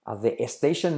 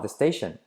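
First: An extra 'e' vowel comes before 'station'. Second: 'The' links straight into 'station', no added vowel. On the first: The speaker calls it wrong. "para que no se ponga la E delante" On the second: The speaker calls it right. "Unimos D con station"

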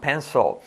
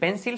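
First: The L sound is strong and exaggerated. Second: The L sound is weak and plain. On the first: The speaker calls it right. "la L bien potente" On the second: The speaker calls it wrong. "La L no vamos a decir pencil"

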